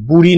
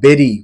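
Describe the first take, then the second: First: The first vowel sounds like oo. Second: The first vowel sounds like eh. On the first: The speaker calls it wrong. "বুড়ি নয়" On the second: The speaker calls it right. "Proper উচ্চারণ"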